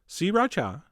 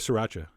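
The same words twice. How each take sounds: First: Each of the three syllables is said distinctly. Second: The syllables are run together less distinctly. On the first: "Three distinct syllables" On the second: "I'm going back to sriracha"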